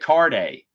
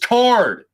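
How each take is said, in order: First: The name is said with a French-style ending. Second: The name is said plainly, without a French-style ending. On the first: The speaker calls it wrong. "I thought was like French" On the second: The speaker calls it right. "It's Card"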